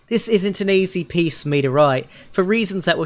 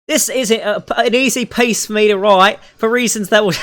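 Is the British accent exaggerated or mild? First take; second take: mild; exaggerated. First: It uses a toned-down, milder British accent. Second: It uses a heavily exaggerated British accent. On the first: The speaker calls it right. "I won't do it quite that terrible" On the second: The speaker calls it wrong. "I did the Tracer impression there for a second"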